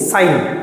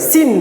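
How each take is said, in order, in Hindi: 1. स्वर संयुक्त स्वर (डिफ़्थॉन्ग) है, 'pine' की तरह। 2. स्वर छोटा है, 'pin' की तरह। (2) "कुछ बच्चे सिन पढ़ते हैं, सिन नहीं"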